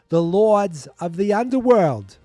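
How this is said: It is said in a big, thick accent.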